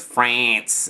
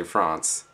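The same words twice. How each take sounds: First: "France" said higher and louder with a short flat Australian "a"; mock class correction of France with a flat "a"; classmates correcting. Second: France said with a long broad "ah", like Frahnce; France with a broad English "ah"; English-style France. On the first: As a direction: bark "France" back with the flat Aussie vowel, like correcting him. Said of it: "everyone in the class goes". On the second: Shown as a demonstration. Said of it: "So I say France instead of France".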